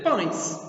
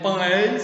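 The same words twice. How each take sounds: First: "pães" in one syllable, like "pãis"; natural "pães", gliding from nasal ã into i; E as I glide. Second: "pães" with a clear open e, in two beats like "pã-és"; spelling-style "pães", the e not reduced to i; E fully sounded. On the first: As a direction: say "pães" with the e sounded as a short i. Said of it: "você vai dizer pães". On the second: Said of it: "Você não vai dizer pães". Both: Shown as a demonstration.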